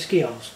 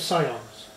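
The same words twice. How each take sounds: First: The C sound is said aloud. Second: The C sound is left out. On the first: This is the older way to say it. "But Old English, it would be Scions" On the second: This is the newer way to say it. "New English, you drop the C. It becomes Scions"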